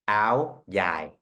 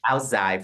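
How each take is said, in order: First: It is said in a southern Vietnamese accent. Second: It is said in a northern Vietnamese accent. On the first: "in the South, we say" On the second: "for the North"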